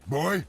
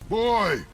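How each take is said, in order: First: It is said in a softer, gentler tone. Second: It is said in a harsh, aggressive tone. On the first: The speaker calls it right. "the tone is much better" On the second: The speaker calls it wrong. "watch your tone and your delivery"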